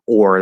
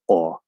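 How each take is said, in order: First: An American accent with a clear final r. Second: A British accent with the final r dropped. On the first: "instead of or" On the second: "in standard British English ... they say o"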